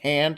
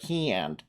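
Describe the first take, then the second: First: It is said in a general American accent. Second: It is said in a Michigan women's accent.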